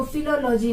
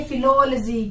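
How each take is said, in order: First: फिलोलॉजी with लॉजी as its own unit; mispronounced फिलोलॉजी. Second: फिलोलॉजी as fi-LOL-jee; corrected pronunciation. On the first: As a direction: say फिलोलॉजी as filo-LOH-jee. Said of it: "इसको फिलोलॉजी नहीं कहेंगे". (फिलोलॉजी को फिलो-लोजी तोड़कर) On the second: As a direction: join the L to फिलो in फिलोलॉजी, then jee. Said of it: "इसको बोलेंगे फिलोलॉजी". (फिलोलॉजी को फिलोल-जी बोलकर) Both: Shown as a demonstration.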